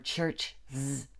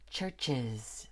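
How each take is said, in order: First: The word ends with a bare z sound. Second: The word ends with an added iz syllable. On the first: The speaker calls it wrong. "or church z" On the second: The speaker calls it right. "We have to say churches"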